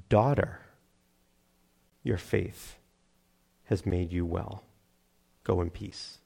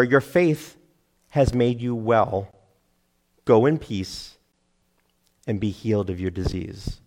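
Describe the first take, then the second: First: Low, very soft, slow with long pauses; hushed, tender blessing. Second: Said in the usual way. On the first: Acted. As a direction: say it gently, as to a beloved daughter. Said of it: "Is there a more tender word". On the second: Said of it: "what word I left out there".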